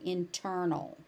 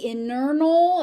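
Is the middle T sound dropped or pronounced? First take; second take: pronounced; dropped. First: The middle T sound is pronounced. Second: The middle T sound is dropped. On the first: The speaker calls it right. "So that T actually does need to be there" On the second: The speaker calls it wrong. "if you say internal, ... nobody's gonna understand what you're saying"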